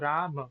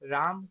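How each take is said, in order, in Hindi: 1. शब्द के अंत में स्वर की ध्वनि है। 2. शब्द व्यंजन पर खत्म होता है, उसके बाद कोई स्वर नहीं। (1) "ये होता है" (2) "कभी नहीं होता"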